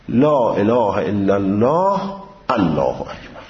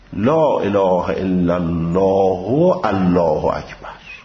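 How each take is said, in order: First: Final vowel is dropped and the glottal stop sounded. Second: Final vowel is kept and the glottal stop sounded. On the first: "وصل بکنه ما قبل الله اکبر را با سکون و ذکر همزه" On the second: "وصل به حرکت بکنه با ذکر همزه"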